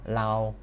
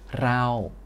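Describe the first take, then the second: First: The word begins with an L sound. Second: The word begins with an R sound. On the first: "penyebutan er er ini suka dimudahkan cara bicaranya menjadi L-sim ya. Jadinya lau" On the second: "kita mulai dari kata raw"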